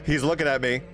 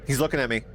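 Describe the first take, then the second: No difference in how they are said.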